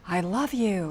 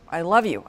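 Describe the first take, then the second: First: Soft, lingering "I love you"; tender. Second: Low, tossed-off "I love you"; thrown away. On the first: Wife showing husband the loving way to say it. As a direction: say it like you mean it, gently. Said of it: "It wasn't like". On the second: Wife demonstrating to husband a careless "I love you". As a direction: drop it on the floor like it means nothing. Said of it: "I threw it on the floor". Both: Shown as a demonstration.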